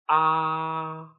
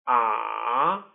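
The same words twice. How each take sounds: First: The pitch stays high and level. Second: The pitch dips low, then rises. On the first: "With the first tone, which is also called the flat tone" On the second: "With the third tone, which is also called the falling rising tone"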